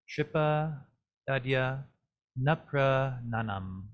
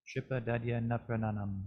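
First: "Tripa" then "Dadya" then a slow "Nuprananam", each word set apart; separate words. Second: "Tripa Dadya Nuprananam" run together in one smooth phrase; joined phrase. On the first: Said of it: "our pronunciation for this". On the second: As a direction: link "Tripa Dadya Nuprananam" without pauses. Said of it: "try it on your own once". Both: Shown as a demonstration.

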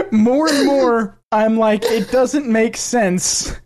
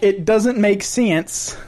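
First: Slow, higher mock Southern woman; first stab at imitating a thick Southern drawl, stretched out; Southern accent imitation. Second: Mock Southern woman, slowing right down on the last phrase; retry the Southern imitation with a twangier, drawn-out "sense"; thick Southern accent. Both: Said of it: "speaks with a thick Southern accent".

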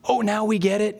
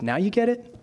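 First: Lightly mimicked know-it-all disciples; eager claim. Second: Rising, ironic question back; confronting comeback. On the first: Disciples assuring Jesus they understand, mildly over-eager. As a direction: play it mildly smug and keen. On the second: Acted. Jesus calling the disciples' bluff, ironic and challenging. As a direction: throw their words back, lightly challenging. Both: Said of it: "he slingshots it right back at them".

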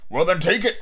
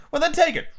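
First: Adult comeback, only slightly raised; echoing father. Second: Put-on very high-pitched boy; daring child. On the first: Acted. Father returns son's challenge, bickering retort. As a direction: toss the dare back. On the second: Son challenges father to take medicine, daring. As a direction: dare him in a piping child's voice.

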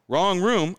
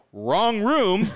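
First: Firm, higher and louder; a firm, pointed correction; flat firm correction. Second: Higher and louder, pointed; a louder, pointed correction to the stranger; firm correction. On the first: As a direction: correct her, clipped and firm. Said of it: "And I go". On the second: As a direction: say it firmly. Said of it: "I go". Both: Retold or imitated.

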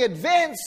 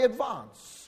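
First: "advance" with a short flat a, as in cat; Australian pronunciation. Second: "advance" with a long ah, like ad-VAHNCE; New Zealand pronunciation. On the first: New Zealander contrasting Australian speech with his own, Australian pronunciation. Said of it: "say particular words a different way". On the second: New Zealander proudly showing his own way, New Zealand pronunciation. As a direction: draw out "advance" with a broad ah. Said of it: "I'll say advance, which sounds much better". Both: Shown as a demonstration.

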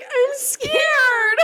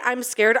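First: High, tiny whimpered "I'm scared."; pathetic scared whimper. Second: Said in the usual way. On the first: Retold or imitated. Imitating her own pathetic fright in the haunted house, high whimper. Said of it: "the way I say, I'm scared, I literally was like". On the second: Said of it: "the way I say".

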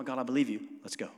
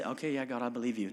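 First: Firmer, eager "God, I believe you. Let's go."; ready to go. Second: Half-hearted yes. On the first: Pastor showing the obedient believer, eager and firm. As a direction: say it like you're already moving. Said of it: "No, no, no". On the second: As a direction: shrug it off, saying yes with no intent. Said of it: "But he didn't just say". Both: Retold or imitated.

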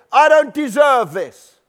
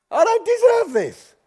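First: Slow, louder, higher indignant complaint; indignant protest. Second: Much higher whining complaint; whiny self-pity. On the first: Aggrieved believer protesting to God, loud and indignant. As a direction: insist on the injustice, drawn out. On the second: Aggrieved believer pleading to God, high and whiny. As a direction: whine it like a wounded victim. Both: Acted.

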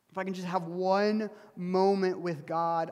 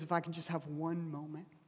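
First: Louder plea, leaning on "one"; insistent plea. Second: Softly plead, holding back; hushed plea. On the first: Job demanding his moment with God, insistent plea with "one" stressed. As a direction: draw out and punch "one". Job's plea repeated with more force. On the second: Job longing for an encounter with God, hushed plea. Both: Acted.

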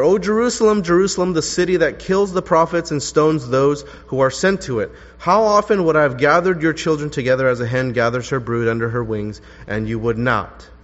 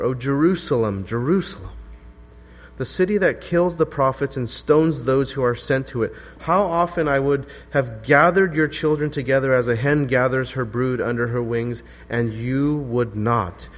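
First: Strong, raised reading of the lament; ringing reading. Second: Mournful reading. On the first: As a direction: proclaim it out to the room. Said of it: "you notice how Jesus lamented for Jerusalem". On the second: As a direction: grieve over the city as you read. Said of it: "this is how Luke expressed Jesus' lament". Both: Shown as a demonstration.

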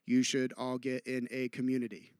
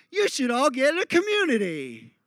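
First: Low, soft and even; understated, level suggestion; subdued example. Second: High-pitched put-on voice dropping at the end; exaggerated sing-out delivery; contrasting exaggerated example. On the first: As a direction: say it quietly, pitched right down. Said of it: "give you an example". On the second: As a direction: swoop high, then fall away. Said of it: "three very different meanings". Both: Shown as a demonstration.

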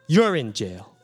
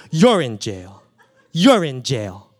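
First: Said in the usual way. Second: Laughing. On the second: Real, not acted. Repeats it, laughing.

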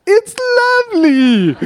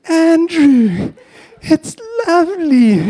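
First: Very high, loud, cracking gush; mum's strained praise. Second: High, drawn-out motherly gush with a cry in it; mum's gushing praise. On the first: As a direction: squeeze out a shrill forced compliment like a mum hiding the truth. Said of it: "like this". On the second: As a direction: coo over the ugly carving like a doting mum. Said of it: "she says". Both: Retold or imitated.

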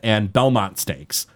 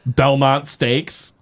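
First: Said in the usual way. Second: Belmont Stakes drawn out slowly, leaning on Belmont; Belmont punchline. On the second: Shown as a demonstration. Host repeats the race name for the vampire pun, slow teasing stress. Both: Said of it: "best vampire reference ever".

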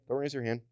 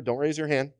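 First: Softer, hushed repeat. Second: Said in the usual way. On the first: Shown as a demonstration. Preacher gently repeats to the congregation, softly. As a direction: repeat Don't raise your hand much softer, half under the breath. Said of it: "repeats it, dropping to a hush". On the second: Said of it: "preacher reassures the congregation".

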